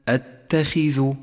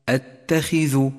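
Both takes have the same delivery.

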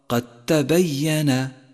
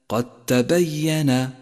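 The two takes are said the same way.

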